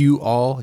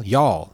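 First: "You, all" as two distinct syllables; two separate words. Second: "y'all" run together as one syllable; compounded into one syllable. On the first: Showing a friend how syllables compound, "You, all" in two separate words. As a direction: say "You, all" uncontracted, each word apart. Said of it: "you're compounding syllables". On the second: Showing a friend two become one, "y'all" as one syllable. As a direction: contract "y'all" into a single falling syllable. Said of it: "You're going from two to one". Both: Shown as a demonstration.

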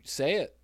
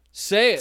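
First: Said in the usual way. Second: Louder. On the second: Shown as a demonstration. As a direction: say it louder and higher.

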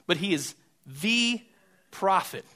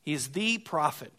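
First: "the" long and pressed, "prophet" falling; stress on THE. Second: "the" stressed, ending on a calm fall; stress on THE again. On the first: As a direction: lean hard on "the", pause, then "prophet". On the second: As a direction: restate it, settled, weight on "the". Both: Shown as a demonstration. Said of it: "is not just a prophet".

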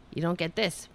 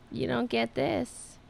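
First: Said in the usual way. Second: Slow, drawn-out teasing. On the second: Pretend. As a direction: tease the cat, drawn out. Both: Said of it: "I'm just teasing him now".

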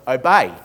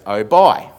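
First: Said in the usual way. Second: "Obey" said as oh-BYE, loud on the end; the dictation voice turning "Obey" into oh-bye; misheard obey. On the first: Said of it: "So I say to Moira". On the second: Retold or imitated. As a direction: say "Obey" with the last vowel like "bye". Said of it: "She goes".

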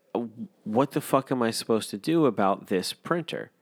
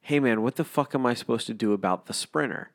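First: "printer" said plainly, with no s before it; the word as the caller meant it, "printer"; "printer" said clearly as printer; what was said. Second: "Sprinter" with a clear s before the p; the misheard version, "the Sprinter"; "Sprinter" with the s sound up front; what was misheard. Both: Retold or imitated. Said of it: "And what I heard was".

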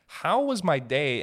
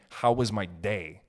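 First: "How WAS my day?" higher, louder and slow; stress on was. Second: Said in the usual way. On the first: Shown as a demonstration. Caring mother asking about his day, stressing was. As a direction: lean on was with real interest. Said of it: "implies that, like, I have a place". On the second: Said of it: "How was my day?" implies that".

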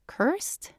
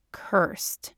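First: Much higher, rising echo; puzzled question. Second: Whispered, breathy and grave; hushed confession. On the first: Woman echoes her partner's confession, questioning. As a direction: repeat it as an incredulous question. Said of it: "she asks". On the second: Man confesses his secret to his partner, hushed. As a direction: drop to a whisper on the word. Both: A narrator's reading.

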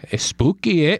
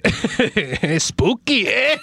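First: Mock Canadian lilt on spooky eh; hammed-up Canadian, a touch far from his own voice; Canadian accent. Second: Slow, higher, stretched mock Canadian; Canadian accent. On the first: Laughing host redoes the ghost quote in a Canadian accent. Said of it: "that was Canadian". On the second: Host exaggerates the accent after friend mocks it. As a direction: drag out spooky eh in a hammed-up Canadian voice. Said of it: "like, Canadian Mexican".

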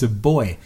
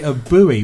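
First: Put-on "boy" for buoy, one syllable; British pronunciation of buoy. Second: "buoy" in two syllables, as BOO-ee; American pronunciation of buoy. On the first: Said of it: "I actually pronounce it right". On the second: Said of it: "in America you call it". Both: Shown as a demonstration.

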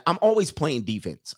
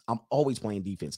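First: Said in the usual way. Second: "always playing defense" repeated softer and lower; quieter repeat. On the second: Real, not acted. Coach repeating his point to chat, softly. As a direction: let the repeat drop away softly.

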